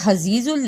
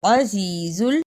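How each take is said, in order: First: The word begins with an 'h' sound. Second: The word begins with a throaty 'ayn' sound. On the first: The speaker calls it wrong. "इसे हजीजुल नहीं पढ़ना" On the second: The speaker calls it right. "ऐन की सही आवाज आनी चाहिए"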